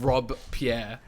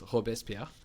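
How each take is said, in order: First: The name is split into two separate words. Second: The name is run together as one word. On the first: The speaker calls it wrong. "it's not Rob Pierre" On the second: The speaker calls it right. "It's not two. It's not two words. It's one word"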